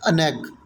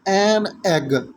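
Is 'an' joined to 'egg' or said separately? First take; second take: joined; separate. First: The word 'an' runs straight into 'egg'. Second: The word 'an' is said apart as 'en'. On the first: The speaker calls it right. "That is अन egg" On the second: The speaker calls it wrong. "That is not एन egg"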